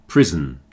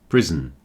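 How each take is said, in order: The two takes are said the same way.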